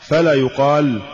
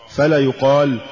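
The two takes are said the same way.

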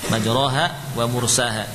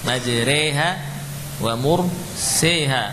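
First: The long vowels are open a sounds. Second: The long vowels lean toward e sounds.

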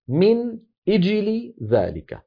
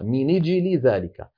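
First: The glottal stop is pronounced after the word min. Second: The glottal stop is dropped; n links to the i. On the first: This is the original form of the phrase. "أصلها" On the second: This is one reciter's transmitted reading. "رواها لنا أبو جعفر بنقل كسرة إجل إلى النون قبلها وحذف الهمزة"

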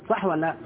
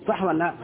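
No difference in how they are said.

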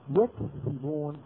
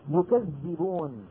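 First: The dh sound is short and single. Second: The dh sound is doubled and held longer. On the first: They themselves tell lies. "يكذبون فعل مضارع، ما ماضيه؟ ماضيه كذب" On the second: They accuse others of lying. "يكذبون فعل مضارع، ما ماضيه؟ ماضيه كذب"

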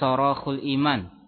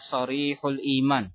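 First: The second vowel of the first word is 'o'. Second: The second vowel of the first word is 'i'. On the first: The speaker calls it wrong. "Di sini ada yang keliru di dalam pelafatannya" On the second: The speaker calls it right. "Lafat yang benar adalah"

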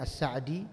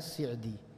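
First: The first syllable has an 'a' vowel. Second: The first syllable has a different vowel.

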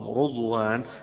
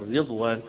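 First: The first vowel is a 'u' sound. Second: The first vowel is an 'i' sound. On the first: This is the reading of one transmitted line of reciters. "وقراءة شعب عن عاصم رضوان بضم الراء" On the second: This is the reading of most reciters. "قراءة الجمهور رضوان بكسر الراء"

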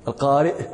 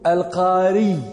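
First: It ends in a glottal stop after the vowel. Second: It ends in a doubled y sound. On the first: The speaker calls it right. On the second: The speaker calls it wrong.

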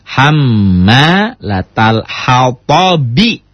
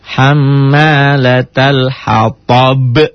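First: The last word ends with an 'i' vowel. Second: The last word ends on the consonant 'b'. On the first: "Kasroh, bi" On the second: "Karena dihentikan semua baris menjadi sukun"

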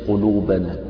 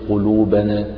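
Both takes have the same delivery.

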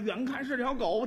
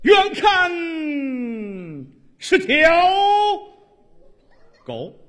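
First: It is spoken in a plain, everyday comic voice. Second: It is spoken in a resonant, theatrical recitation voice. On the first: The speaker calls it wrong. "你说相声啊，" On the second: The speaker calls it right. "你按话剧朗诵说这段死狗多好啊"

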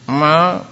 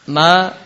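First: The syllable is spoken with a nasal voice. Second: The syllable is spoken from the mouth, not nasal. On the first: The speaker calls it wrong. "mengucapkan huruf itu dengan hidung terus" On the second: The speaker calls it right. "jangan sampai suara hidung"

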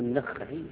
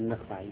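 First: The kha is followed by an a vowel. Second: The kha has no vowel after it. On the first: "بفتح الخاء" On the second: "بسكون الخاء"

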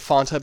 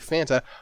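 First: The first vowel matches the vowel in 'want'. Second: The first vowel differs from the vowel in 'want'. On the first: This is the speaker's own habitual pronunciation. "I've always said Fanta because ... they're rhyming Wanta with it" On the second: This is the pronunciation most other people use. "But I usually hear people say Fanta"

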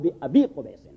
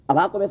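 First: The word before qubays ends in an i vowel. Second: The word before qubays ends in an a vowel. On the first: The speaker calls it right. "ایکچولی پروننسیشن اور ایکسنٹ ہوگا" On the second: The speaker calls it wrong. "ابا قبیس نہیں ہوگا"

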